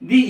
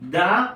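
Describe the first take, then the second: First: The word ends with a long 'ee' vowel. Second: The word ends with a short 'uh' vowel. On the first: The speaker calls it right. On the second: The speaker calls it wrong.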